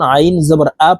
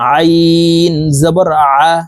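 First: The vowel starts with a plain glottal catch. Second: The vowel starts with a pressed throaty sound. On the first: The speaker calls it wrong. "হামজার উচ্চারণ করে থাকি" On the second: The speaker calls it right. "হলকের মধ্যখান থেকে চাপ দিয়ে পড়তে হবে"

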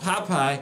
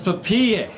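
First: The name is pronounced the plain English way. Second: The name is pronounced the French way. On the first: The speaker calls it wrong. "It's not Popeye" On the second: The speaker calls it right. "It's French"

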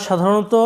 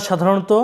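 Both takes have the same delivery.

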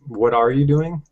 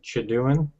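First: Every word of the phrase is said in full. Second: The first words blur into a single short syllable. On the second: "And then"

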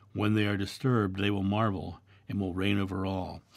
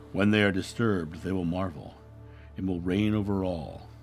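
The two takes are said the same way.

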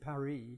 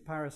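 First: The city name is said with a French pronunciation. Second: The city name is said with an English pronunciation. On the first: "we don't say Paris" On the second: "We see Paris and Rome because they're incredibly important places that have their own English names"

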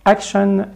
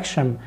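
First: The word ends with a clear n sound. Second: The word ends with an m sound. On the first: "action تبقى action" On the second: "تبقى action"

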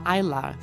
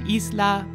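First: It is said like English 'island', with silent s. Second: It is said the Spanish way, with a sounded s. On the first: This is the current way of saying it. "very English, similar to the word island" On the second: This is the older way of saying it. "the Spanish way"

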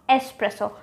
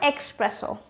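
First: It is said without a k sound before s. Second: It is said with a k sound before s. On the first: The speaker calls it right. "just remove that X, it does not belong there" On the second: The speaker calls it wrong. "or do you say espresso with an X?"

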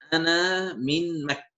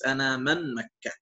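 First: The middle word is said with an i vowel. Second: The middle word is said with an a vowel. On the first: The speaker calls it right. "So the correct way" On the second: The speaker calls it wrong. "So this is wrong way if you use like this"

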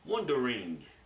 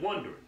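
First: Every syllable of the word is pronounced. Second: Some syllables are dropped from the word. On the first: "Somebody with proper enunciation, they say wondering" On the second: "I said wondering"

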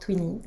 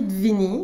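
First: The word begins with a T sound. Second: The word begins with a D sound. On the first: This is the actual pronunciation. The speaker calls it right. "ça se prononce Twinny" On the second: This follows the written spelling. The speaker calls it wrong. "Ça s'écrit Dvini"

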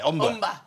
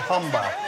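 First: The word begins without an h sound. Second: The word begins with an h sound. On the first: This is how locals say it. "If you come from all, you don't say hull or humba, you say umba" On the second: This is how outsiders say it. "They say humba"

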